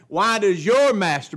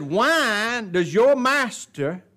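First: "your" capitalized, loud and high; highlighted your. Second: "your" drawn out, slow and heavy; stress on your. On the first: Preacher repeating the Pharisees' question, punching "your". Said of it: "I capitalize it and highlight it". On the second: Preacher quoting Pharisees, leaning on "your". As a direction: lean hard on "your", slowly. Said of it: "I emphasize that word". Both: Shown as a demonstration.

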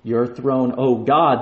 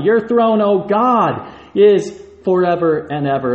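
First: Said in the usual way. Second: "Your throne, O God" rung out high and loud; preached proclamation. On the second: Shown as a demonstration. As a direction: proclaim it like a herald. Repeats the verse with force.

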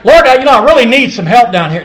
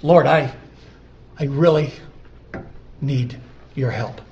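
First: Loud, brisk, higher-pitched mock prayer; offhand prayer. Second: Halting, earnest plea to God; heartfelt prayer. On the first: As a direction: rattle off a casual request to God, loudly. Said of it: "It's not like". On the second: Acted. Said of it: "No, it's".

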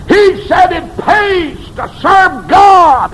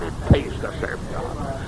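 First: High, loud, slow sermon cry; crying the line out at the peak of the sermon; shouted preaching. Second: Soft, unvoiced echo; hushed repeat of the shouted line; whispered preaching. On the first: Acted. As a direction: shout it out and draw it long. Shouted take. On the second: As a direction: whisper it right after the shout. Whispered take.

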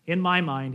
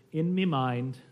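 First: Said in the usual way. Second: Imitated Liverpool "me mind", with "me" for "my"; dialect "me" for "my". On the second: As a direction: say "me" as "mee" in place of "my". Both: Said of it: "he actually said".

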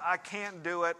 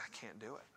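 First: Said in the usual way. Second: Whispered, defeated confession; retold whisper. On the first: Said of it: "this wasn't the "I can't do it". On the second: To the pastor, a husband admits defeat in a whisper. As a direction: breathe it out like a man who has given up. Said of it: "And he said".

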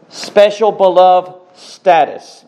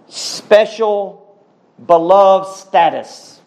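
First: Emphatic repeat. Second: Said in the usual way. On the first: Real, not acted. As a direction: proclaim it again with more force. Preacher repeats phrase for emphasis.

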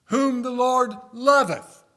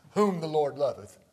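First: Loud and high, dragged out slowly; fervent loud proclamation; preaching cry. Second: Said in the usual way. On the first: Shown as a demonstration. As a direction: lift the whole verse up. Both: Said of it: "verse repeated, different force".

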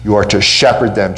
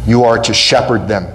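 First: Shepherd pressed, pitch dropping at the end; stress on SHEPHERD. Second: YOU pressed hardest, the rest falling away; stress on YOU. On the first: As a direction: land the weight on shepherd. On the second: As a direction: lean on the word you. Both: Shown as a demonstration.

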